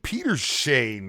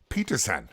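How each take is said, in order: First: The name ends with a 'shane' sound. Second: The name ends with a 'son' sound. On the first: The speaker calls it wrong. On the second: The speaker calls it right.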